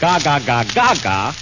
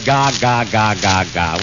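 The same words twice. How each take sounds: First: It is said expressively, with strong feeling. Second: It is said flatly, without expression. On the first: The sounds carry real meaning. The speaker calls it right. "he means it" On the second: The sounds carry no meaning. The speaker calls it wrong. "with no feeling to it"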